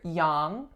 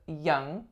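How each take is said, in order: First: The vowel is opened wide, like "ah". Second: The vowel is a relaxed "uh" sound. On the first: The speaker calls it wrong. "I usually hear people make it a bit too open" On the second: The speaker calls it right. "It's the uh as in up"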